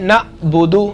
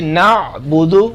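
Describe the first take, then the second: First: An abrupt catch in the voice follows the first vowel. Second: A squeezed throat sound follows the first vowel. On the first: The speaker calls it wrong. "झटके के साथ" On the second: The speaker calls it right. "आइन गला दबाकर"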